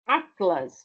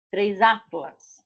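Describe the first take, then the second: First: Said in the usual way. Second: Três atlas, said slowly, with atlas unchanged; careful classroom example; slow teaching demo. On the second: Shown as a demonstration. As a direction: spell out the plural slowly for the learners. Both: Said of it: "É igual".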